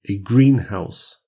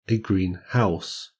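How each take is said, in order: First: The stress falls on green. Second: The stress falls on house. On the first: It names a glass building for plants. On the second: It describes a house that is green.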